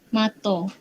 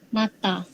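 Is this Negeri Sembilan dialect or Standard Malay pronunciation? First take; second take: Negeri Sembilan; Standard Malay. First: It ends in an o vowel. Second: It ends in an open a vowel. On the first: "Untuk dialek Negeri Sembilan" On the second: "bahasa Melayu Standard"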